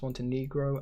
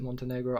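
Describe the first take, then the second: First: The ending sounds like the Spanish word negro. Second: The ending does not sound like Spanish negro. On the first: This is another accepted pronunciation. "I know it can be pronounced Montenegro, and no, I'm not saying an offensive word there" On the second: This is the speaker's usual pronunciation. "I pronounce it Montenegro"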